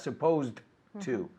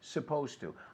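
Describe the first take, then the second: First: The D is said separately before to. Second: The D blends into to, sounding like T. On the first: The speaker calls it wrong. "la D, it's not supposed to" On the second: The speaker calls it right. "Pero se junta"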